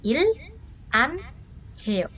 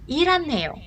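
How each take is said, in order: First: The syllables are said separately, each distinct. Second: The syllables run together with the h dropped.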